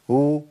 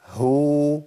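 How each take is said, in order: First: "هو" with no audible h, only oo; wrong damma. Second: "هو" with clear h and long oo; correct ha damma. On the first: Teacher rejecting this error, "هو" as bare oo. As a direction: let the vowel swallow the h in "هو". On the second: Teacher correcting the error, "هو" with h fully sounded. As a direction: bring out the h at the start of "هو". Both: Shown as a demonstration. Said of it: "ما ينفعش الكلام ده".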